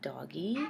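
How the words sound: The word sounds wary and nervous. "with apprehension"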